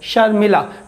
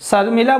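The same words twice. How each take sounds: First: The first sound is a palatal sh. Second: The first sound is a plain hissing s. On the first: The speaker calls it right. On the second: The speaker calls it wrong.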